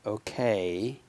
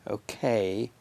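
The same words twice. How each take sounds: No difference in how they are said.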